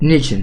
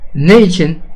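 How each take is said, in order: First: It is said as one merged word. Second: It is said as two separate words.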